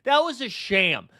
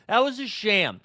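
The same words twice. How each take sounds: The two takes are said the same way.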